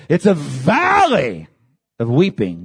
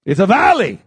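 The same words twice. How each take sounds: First: Slow, weighty stress. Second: Said in the usual way. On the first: Shown as a demonstration. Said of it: "Baca means weeping".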